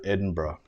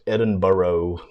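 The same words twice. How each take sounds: First: It is pronounced the local British way. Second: It is pronounced the American way. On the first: The speaker calls it right. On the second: The speaker calls it wrong.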